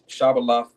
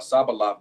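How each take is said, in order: First: The word begins with a 'sh' sound. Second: The word begins with an 's' sound. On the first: This is the standard form of the word. "Shabbalat is the uh, correct term" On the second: This is how a regional group says it. "Sabbalat is what the uh, dialect of the uh, Ephraimites"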